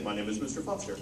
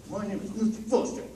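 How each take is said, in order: First: Said in the usual way. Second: Mister Foster lifted higher, louder, with rising MISTER; lively, higher and louder. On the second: Shown as a demonstration. Director shows students how delivery changes feeling, lifted and louder. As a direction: say it with more feeling and lift. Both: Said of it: "the way you say the words ... gives it a feeling".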